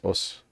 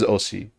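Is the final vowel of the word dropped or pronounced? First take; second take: dropped; pronounced. First: The final vowel is dropped. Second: The final vowel is clearly pronounced. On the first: "a lot of the time it is os" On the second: "she says osi clearly"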